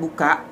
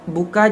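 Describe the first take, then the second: First: It is said with an Acehnese glottal catch. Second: It is said in standard Indonesian.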